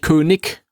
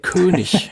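First: The word has a local regional pronunciation. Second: The word has standard stage German pronunciation. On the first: The speaker calls it wrong. "Das sagt man hier" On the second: The speaker calls it right. "Das ist der König"

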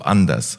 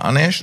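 First: It is said in Standard German. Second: It is said in Hessian dialect.

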